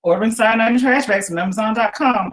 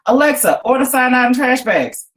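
First: A hint of an assistant's even reply; lightly voiced Alexa. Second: Higher, louder bark at the speaker; shouted command. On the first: Alexa confirms the cat's order, lightly voiced machine. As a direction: read it back like a smart speaker. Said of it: "Alexa said". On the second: Cat Cora shouts an order at Alexa, loud command. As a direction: call it out into the air at the device. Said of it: "Cora shouted into the air". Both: A narrator's reading.

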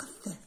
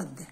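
First: "الث" with a soft, voiceless th as in think; th in "الث" without any buzz; voiceless th sound. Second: "الذ" with a buzzing th as in this; th in "الذ" voiced, not whispery; voiced th sound. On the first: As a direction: say "الث" with unvoiced tongue-between-teeth th. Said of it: "والث اللي تنطق الث". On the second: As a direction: say "الذ" with voiced tongue-between-teeth th. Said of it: "ماشي اللي تنطق الذ". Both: Shown as a demonstration.

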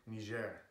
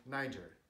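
First: Niger said as nee-ZHAIR; French pronunciation. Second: Niger said as NY-jer, stress first; English pronunciation. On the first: What people are starting to say, French pronunciation. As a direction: say Niger the French way, stress on the end. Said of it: "they're starting to say". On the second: What people were calling it a week ago, English pronunciation. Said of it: "people were calling it Niger". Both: Shown as a demonstration.

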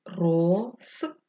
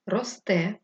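First: Рос... те, held apart; syllable-by-syllable dictation. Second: Said in the usual way. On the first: Shown as a demonstration. Teacher dictating for pupils writing, syllable by syllable.

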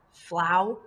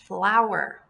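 First: "Flower" broken in two, FLOW, pause, ER; split into syllables. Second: Said in the usual way. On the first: Shown as a demonstration. Teacher breaks up the word for pupils, "Flower" in separate syllables. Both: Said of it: "this is going to be one syllable".

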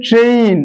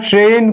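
First: ট্রেন said "tre-in", with an i glide; correct "trein" glide. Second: ট্রেন with one plain e vowel; pure e in ট্রেন; common mistaken "tren". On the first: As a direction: stretch ট্রেন into "treyin". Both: Shown as a demonstration. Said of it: "ভুল উচ্চারণ করি বলে".

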